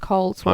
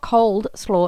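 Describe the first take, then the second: First: No d sound is heard before 'slaw'. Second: A d sound is heard before 'slaw'. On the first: The speaker calls it right. "it's cold slaw" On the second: The speaker calls it wrong. "it's not cold slaw"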